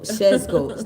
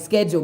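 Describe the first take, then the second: First: The word begins with an 'sh' sound. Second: The word begins with an 'sk' sound. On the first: This is how Kenyans say it. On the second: This is how the speaker's own group says it.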